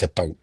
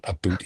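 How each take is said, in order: First: "a bout" with a rounded diphthong, softer and lower; Canadian "about". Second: "a boot" with a long oo, said softer; exaggerated "about". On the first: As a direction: say "a bout", not "a boot". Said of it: "it's a bout". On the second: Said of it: "but it's not a boot". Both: Shown as a demonstration.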